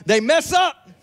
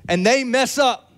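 First: Meme catchphrase. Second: Mild meme catchphrase; a touch of the "mess up" meme. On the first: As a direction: belt the meme line. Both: Retold or imitated. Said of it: "A-, Aaron".

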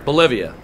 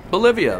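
First: Said in the usual way. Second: Higher, pointed incredulous Bolivia; as if the word alone is an alarm; suspicious repeat. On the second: Acted. TSA agent echoes the passenger's answer, incredulous.

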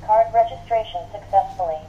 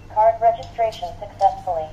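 The two takes are said the same way.

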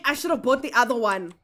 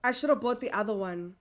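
First: Said in the usual way. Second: Much softer, lower muttered repeat; quiet regret. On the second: Real, not acted. Shop owner regretting the cheaper fridge, soft muttered regret.

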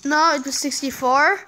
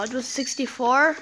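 First: "No, it was sixty-four" stated firmly, "No" hit hard; firm insistence. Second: "It was sixty-four?" asked with a rising, doubtful tune; "sixty-four" lifted at the end as a guess; unsure question. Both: Real, not acted.

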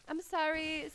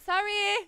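First: Said in the usual way. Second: Raised, insistent apology; louder apology. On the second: Real, not acted. Second apology raised over the first.

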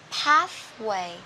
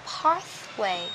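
First: American accent, PATHWAY with the open "a" of cat. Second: British accent, slow PATHWAY with a long "ah". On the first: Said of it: "Anh Mỹ sẽ đọc là". (giọng Mỹ, PATHWAY âm e bẹt) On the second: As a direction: model PATHWAY the British way, "pahth-way". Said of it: "[name] sẽ đọc là pathway". (giọng Anh, PATHWAY âm a dài) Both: Shown as a demonstration.

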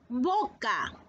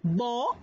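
First: Said in the usual way. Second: "boca" said as bo...ca in two beats; syllable by syllable. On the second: Shown as a demonstration. Teacher sounds out "boca" for the class.

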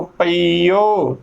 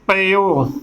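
First: ਪਈਓ drawn out slowly with a long ee, pa-ee-o; spell-out result ਪਈਓ, long ee then open o; long ee before o. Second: ਪਈਓ shortened to pe-o, no long ee; common mispronunciation. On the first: Teacher showing the correct Gurbani reading, ਪਈਓ with long ee. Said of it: "ਈ ਊੜੇ ਨੂੰ ਹੋੜਾ". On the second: Teacher quoting how some congregations misread it, ਪਈਓ as short pe-o. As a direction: say ਪਈਓ as two syllables, pe-o. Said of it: "ਕਈ ਸੰਗਤਾਂ ਇਸ ਦਾ ਉਚਾਰਨ ਕਰ ਦਿੰਦੀਆਂ ਨੇ". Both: Shown as a demonstration.

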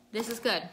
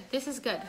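No difference in how they are said.

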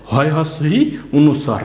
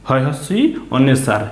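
Both takes have the same delivery.

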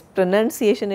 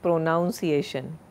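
First: PRONUNCIATION with NUN in the second syllable; correct pronunciation. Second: PRONUNCIATION with NOUN in it, pro-NOUN-ciation; wrong pronunciation. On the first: Teacher giving the right word, pronunciation with a NUN sound, louder. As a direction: say pro-NUN-ciation, firmly and louder. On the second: Teacher showing the mistake, pronunciation said as pro-noun-ciation. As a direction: make the second syllable of pronunciation rhyme with town. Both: Shown as a demonstration. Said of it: "it's not pronunciation".

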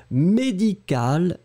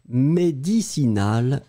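First: Médical slow, with a long final "l"; contrast pronunciation. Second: Médicinal slow, with a long final "l"; contrast pronunciation. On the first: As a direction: say médical slowly, "k" sound. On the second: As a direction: say médicinal slowly, "s" sound. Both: Shown as a demonstration. Teacher repeating the médical and médicinal pair. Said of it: "je vais vous prononcer les deux".

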